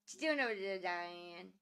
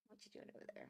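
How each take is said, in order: First: Said in the usual way. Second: Soft whisper, no voice. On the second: Real, not acted. Whispering to the pet over there, hushed. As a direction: breathe the question to the pet.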